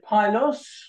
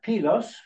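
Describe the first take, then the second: First: The name is said with an English pronunciation. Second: The name is said with a Greek pronunciation.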